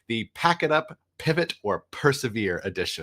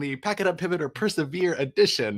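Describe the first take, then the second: First: It is said at a normal speaking pace. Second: It is said at a sped-up, very fast pace.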